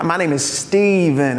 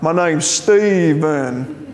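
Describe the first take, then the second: First: Said in the usual way. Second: Slow, drawn-out mock Spanish accent; exaggerated Spanish-accented echo, stretched out slowly; mimicked Spanish accent. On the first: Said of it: "somebody who was Spanish speaking". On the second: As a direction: parrot a Spanish speaker's accent on "Stephen". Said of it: "heard me kind of mimicking them".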